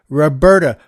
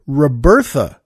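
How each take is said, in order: First: The middle consonant is a plain t sound. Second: The middle consonant is a th sound. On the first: The speaker calls it right. "she said it's Roberta. So I wanted to make it official" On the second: The speaker calls it wrong. "I pronounced it Robertha"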